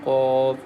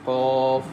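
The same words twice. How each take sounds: First: The q sound is thick and heavy. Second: The q sound is thick and heavy.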